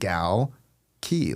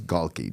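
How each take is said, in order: First: The name is said ending in a key sound. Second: The name is said without a final key sound. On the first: The speaker calls it right. "You say it gal key" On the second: The speaker calls it wrong. "all of you who think his name is Galke"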